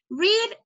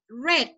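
First: The vowel is long, as in 'reed'. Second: The vowel is short, as in 'red'. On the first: It is the present tense form. "el primero lo decimos read" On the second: It is the past form. "el segundo lo decimos red, como el color"

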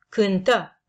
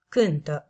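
First: The stress is on the second syllable. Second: The stress is on the first syllable. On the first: The action happened in the past. "cu accentul pe a doua silabă" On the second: The action happens in the present. "cu accentul pe prima silabă"

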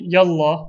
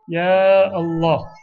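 First: The two words merge into one word. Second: The two words are said separately. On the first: The speaker calls it wrong. "we don't say yallah" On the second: The speaker calls it right. "we say ya Allah"

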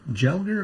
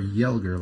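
First: The name begins with a J sound. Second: The name begins with a Y sound. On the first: The speaker calls it wrong. "like with a J" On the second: The speaker calls it right. "like with a Y?"

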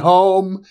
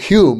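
First: The name is said with an 'oh' vowel. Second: The name is said with a 'yoo' vowel. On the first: The speaker calls it wrong. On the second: The speaker calls it right.

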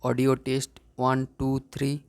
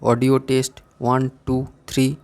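First: It is recorded at minus 10 dB, sounding quieter. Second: It is recorded at the 0 dB level, sounding louder. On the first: "এখন আমরা -10 dBতে record করব।" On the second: "ফার্স্টে আমরা 0 dBতে record করব।"

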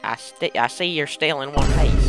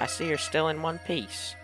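First: It is said in a put-on country accent. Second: It is said in a plain, everyday accent.

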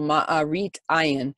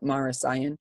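First: The first word ends with a t sound. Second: The first word ends with an s sound.

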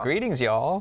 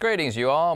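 First: It is said in a Southern American accent. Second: It is said in a neutral accent.

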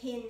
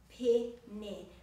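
First: The two vowels have different sounds. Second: Both vowels have the same sound. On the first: The speaker calls it wrong. "Be careful not to say pene or pene" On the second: The speaker calls it right. "it's pene. So the two E's rhyme with each other"

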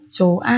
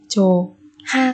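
First: No consonant comes between the two vowels. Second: An h sound starts the second syllable. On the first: The speaker calls it right. "chỉ đọc là chồ thôi" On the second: The speaker calls it wrong. "cũng không đọc là chủ ha"

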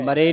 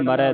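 First: The word ends in a plain 'e' vowel. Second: The word ends in an open 'ai' vowel. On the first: The speaker calls it wrong. "ਮਰੇ ਨਹੀਂ ਪੜਨਾ" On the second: The speaker calls it right. "ਦਲਾਵਾਂ ਦੇ ਨਾਲ"

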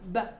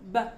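The two takes are said the same way.

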